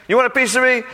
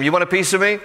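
First: Much higher, louder repeat of the dare; the bully taunt cranked up a notch; louder mock taunt. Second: A playful first jab of a taunt; mock taunt. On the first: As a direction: push the challenge harder, almost shouting. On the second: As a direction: throw out the dare like a bully. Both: Preacher voices Goliath taunting.

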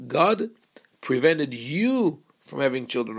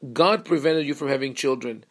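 First: YOU stretched and swooping up; stress on YOU. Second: Said in the usual way. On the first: Shown as a demonstration. Wife hearing blame in her husband's words, stress on YOU. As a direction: lean hard and long on the word "you". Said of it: "she hears the emphasis on the you".

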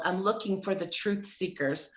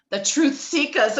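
First: Said in the usual way. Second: "Truth Seekers" higher and louder, final r dropped; stylized "Truth Seekers". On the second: Shown as a demonstration. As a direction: punch out "Truth Seekers", ending it "seek-uhs". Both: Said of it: "I even said it like that".

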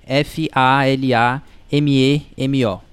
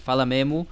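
First: F A L A M E M O, each letter slow and separate; spelling it out. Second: Said in the usual way. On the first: Shown as a demonstration. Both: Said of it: "soletrando pra vocês".

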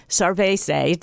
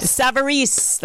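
First: "Sarvese" said as sar-VAY-say, slow and unsure; "Sarvese" with the r before the v, sar-VAY-say; mispronounced name. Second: "Savarese" said slowly as sav-uh-REES, copying the guest; "Savarese" with a careful sav-ur-REES; repeating name carefully. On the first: Real, not acted. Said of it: "I wasn't close at all". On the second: Shown as a demonstration.

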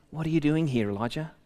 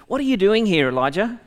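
First: Softer, falling to a hush on Elijah; gentle whisper. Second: High and loud, a commanding call; booming voice of God. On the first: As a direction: speak it like a still small voice. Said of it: "there was a sound of a gentle whisper". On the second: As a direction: call out to him from above like a thundering Lord. The Lord questions Elijah. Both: Acted.

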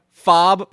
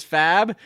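First: Fob rhyming with "Bob"; open vowel. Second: Fab rhyming with "cab"; short A vowel. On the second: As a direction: say fab with the "a" of "cat". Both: Shown as a demonstration. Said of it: "hung up on the pronunciation of".

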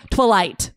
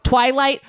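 First: Twilight said as twuh-LIGHT; stress on second syllable. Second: Said in the usual way. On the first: Retold or imitated. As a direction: squash the start of twilight, land on LIGHT. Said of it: "emphasis is on the second syllable". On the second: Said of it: "emphasis is on the second syllable when it should be the first".

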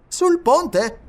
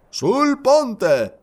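First: SUL PONTE asked in a high, lifted voice; traveler's question. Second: SUL PONTE affirmed high and loud, falling at the end; firm confirmation. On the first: Traveler checking the engineer's plan, high questioning voice. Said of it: "chiese un viaggiatore". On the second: Engineer answering the traveler, loud firm confirmation. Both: A narrator's reading.

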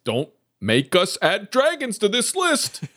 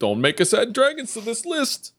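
First: Don't make us add dragons to this list said much higher, rising at the end; high mock threat. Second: Dragons pushed up high, list rising; high mock threat. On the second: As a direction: say it again in a high squeaky register. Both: Shown as a demonstration.

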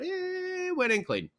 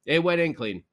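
First: Much higher, slow amazed exclamation. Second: Said in the usual way. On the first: Real, not acted. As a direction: let the disbelief lift the line up high. Amazed at Hedman's goal.

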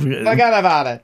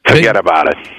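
First: Put-on laughing stab at a Jersey accent; mock Jersey accent. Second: Tough-guy New Jersey catchphrase; hammed-up New Jersey accent; mock Jersey accent. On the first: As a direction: echo it in a playful New Jersey accent. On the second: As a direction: put on a thick Jersey accent. Mock East Coast accent catchphrase.

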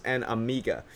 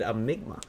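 First: Amiga said a-MEE-ga, no m; and Amiga said properly as a-mee-ga; correct Amiga. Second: Amigma said with an extra m, a-MIG-ma; mispronounced Amigma. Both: Real, not acted. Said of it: "It's dos and Amiga".

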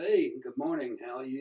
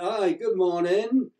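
First: Casual imitation of a Tennessee accent. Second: Put-on slow, higher, louder English-accented greeting; mock a drawn-out, lilting English greeting; English woman's greeting. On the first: Tennessee friends answering the English woman at breakfast, in their Tennessee accent. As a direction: greet lightly in a Southern US accent. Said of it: "You know, in the accent". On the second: Englishwoman greeting strangers at hotel breakfast, in a drawn-out English accent. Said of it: "this English thing behind me".

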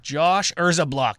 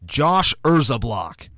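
First: Urzablock echoed slowly with falling tune; repeated pronunciation. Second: Urzablock said slowly and firmly, falling tune; corrected pronunciation. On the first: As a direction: Josh Urzablock repeated carefully. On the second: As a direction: Josh Urzablock spelled out slowly. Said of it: "Am I saying that right?". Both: Real, not acted.

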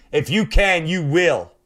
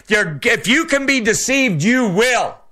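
First: Said in the usual way. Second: High, ringing warning with stress on "you"; shouted pulpit warning; preached warning. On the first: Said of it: "repeats warning quietly". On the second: Acted. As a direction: hit "you" hard and high in "you will". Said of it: "warning repeated later".

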